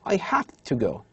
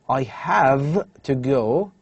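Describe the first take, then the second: First: Have to is shortened and blended together. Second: Have to is said fully and clearly. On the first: "This will be assimilated to become" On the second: "instead of saying"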